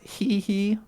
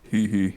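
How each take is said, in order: First: The laugh is in the speaker's ordinary voice. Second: The laugh is in a put-on deep voice.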